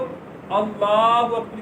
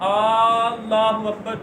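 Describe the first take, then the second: First: The opening vowel is short. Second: The opening vowel is drawn out. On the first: It declares that God is the greatest. The speaker calls it right. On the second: It asks whether God is the greatest. The speaker calls it wrong.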